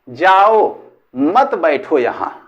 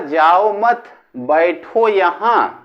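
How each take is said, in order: First: The pause comes after the word 'jao'. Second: The pause comes after the word 'mat'. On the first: Go, don't sit here. "मैंने सुना" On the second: Don't go, sit here. "उसने कहा"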